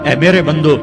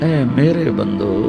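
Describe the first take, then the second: First: The phrase is said in a flat, plain tone. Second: The phrase is said in a warm, tender tone. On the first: The speaker calls it wrong. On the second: The speaker calls it right.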